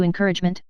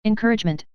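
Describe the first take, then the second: First: Mildly affronted, lifted "encouragement"; incredulous echo. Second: Said in the usual way. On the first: A narrator's reading. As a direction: echo "encouragement" back in understated disbelief. Emma echoes his word, disbelieving.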